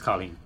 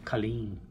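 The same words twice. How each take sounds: First: The name is said the Irish way. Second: The name is said the English way. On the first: The speaker calls it right. "no, it's Colleen. Don't mispronounce the name" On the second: The speaker calls it wrong. "some people over here say Colleen"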